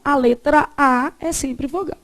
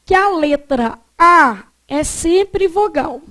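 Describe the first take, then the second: First: Said in the usual way. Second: Slow dictation, leaning on A and sempre; emphatic dictation. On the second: Shown as a demonstration. Teacher gives students a rule to note down, emphatic dictation. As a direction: dictate the rule firmly, word by word.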